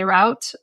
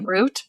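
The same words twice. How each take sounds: First: The word uses the pronunciation for an ordinary road. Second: The word uses the pronunciation kept for the highway name. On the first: It refers to any road or path. The speaker calls it right. "if I'm just talking about a route, I say route" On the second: It refers to the named highway Route 66. The speaker calls it wrong. "when I say Route sixty-six, I say route"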